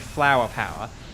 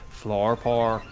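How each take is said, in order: First: It is said in a plain English accent. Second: It is said in a Northern Irish accent. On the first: "I would say flower power" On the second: "the Northern Irish person would say floor power"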